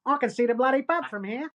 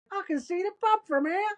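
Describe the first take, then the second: First: Broad Australian accent, raised pitch; rougher-style Australian dialect demo; Furiosa Australian accent. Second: Very high imitated Aussie call; mock holler from far below; retold calling up. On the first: Shown as a demonstration. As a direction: do a strong Aussie accent. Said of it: "Do the Furiosa one again". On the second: Retold fallen man calling up.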